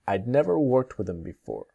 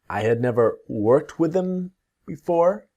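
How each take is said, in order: First: 'I had' is shortened to one syllable. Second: Both words 'I had' are said in full.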